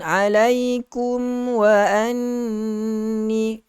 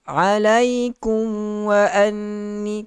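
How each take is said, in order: First: The lips close fully on a distinct m. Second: The m blends into the following w. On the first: The speaker calls it right. "rapatkan bibir kita" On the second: The speaker calls it wrong. "tidak eh"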